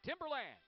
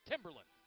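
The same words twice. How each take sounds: First: The stress is not on the first syllable. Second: The stress is on the first syllable. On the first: The speaker calls it wrong. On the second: The speaker calls it right.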